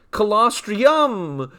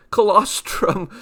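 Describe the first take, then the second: First: "Colostrum" stretched out as co-los-tree-yum, falling at the end; drawn-out punning announcement. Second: Said in the usual way. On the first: Pretend. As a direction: draw "Colostrum" out slowly into a yummy "-yum" ending. Announces the name as a punchline.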